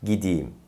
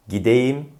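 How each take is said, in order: First: "gideyim" as gi-di-yim, falling; correct spoken form. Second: "gideyim" as gi-de-yim, rising; wrong as-spelled pronunciation. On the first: Teacher repeats the correction, "gideyim" with i. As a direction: narrow "gideyim" to gidiyim. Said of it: "doğru telaffuz". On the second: Teacher repeats the mistake, "gideyim" with e. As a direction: written e fully sounded in "gideyim". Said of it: "yanlış telaffuz". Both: Shown as a demonstration.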